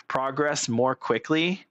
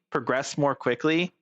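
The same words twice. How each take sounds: First: Slowly, word by word; drawn out, reading it off. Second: Said in the usual way. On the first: Shown as a demonstration. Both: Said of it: "repeats line".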